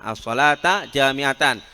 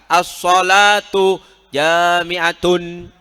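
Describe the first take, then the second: First: Both words end with an a vowel. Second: Both words end with a u vowel. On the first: "dengan menasobkannya" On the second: "jangan kalian kelirukan yang merofakkan"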